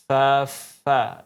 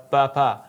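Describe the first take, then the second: First: It starts with a breathy f sound. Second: It starts with a p sound. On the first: The speaker calls it right. "tapi fa fa" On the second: The speaker calls it wrong. "bukan dibaca pa pa"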